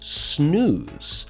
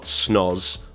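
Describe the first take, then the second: First: The vowel is a long 'oo' sound. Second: The vowel is short, not a long 'oo'. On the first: The speaker calls it right. "it is snooze" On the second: The speaker calls it wrong. "it's not snoz"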